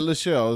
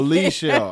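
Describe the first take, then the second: First: The first syllable is said as 'la'. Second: The first syllable is said as 'lee'. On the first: The speaker calls it wrong. "I said LaShell. Is it my wrong?" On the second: The speaker calls it right. "Oh, Lee Shell. I'm sorry"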